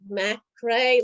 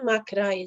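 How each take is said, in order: First: The name is said with an English pronunciation. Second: The name is said with a Croatian pronunciation. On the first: "like Scottish, like it's like English" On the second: "is Croatian"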